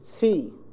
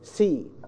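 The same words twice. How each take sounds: The two takes are said the same way.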